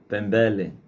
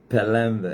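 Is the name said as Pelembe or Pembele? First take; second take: Pembele; Pelembe. First: The syllables run pem-be-le. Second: The syllables run pe-lem-be. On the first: The speaker calls it wrong. "Antes eu pronunciava Pembele" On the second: The speaker calls it right. "Pela primeira vez pronunciei bem o teu nome"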